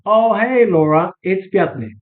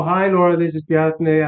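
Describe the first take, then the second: First: Put-on bright, friendly hello as if old friends; familiar greeting. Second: A formal, unsure hello; stiff greeting. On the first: Caller greeting the receptionist like an old friend, breezy and familiar. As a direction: greet her like you've known her for years. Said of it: "the tone says everything". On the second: Caller greeting the receptionist, a touch hesitant and formal. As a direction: read it like a stranger cold-calling. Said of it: "they smell". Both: Shown as a demonstration.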